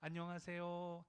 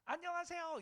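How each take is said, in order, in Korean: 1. 이 인사는 편안한 중간 음높이로 말해졌습니다. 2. 이 인사는 짜증 나고 놀리는 듯한 어조로 말해졌습니다. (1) "솔에다가 맞추라 그래요" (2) "화가 났나 나를 조롱하나"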